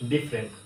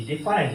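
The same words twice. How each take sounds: First: "ডিফারেন্ট" as DIF-rent; "ডিফারেন্ট" without its middle a; correct pronunciation. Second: "ডিফারেন্ট" as di-fa-rent; "ডিফারেন্ট" in three syllables; mistaken pronunciation. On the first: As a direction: say "ডিফারেন্ট" in two syllables. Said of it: "এটা হবে". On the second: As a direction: say "ডিফারেন্ট" with a full middle a. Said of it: "ডিফারেন্ট না". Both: Shown as a demonstration.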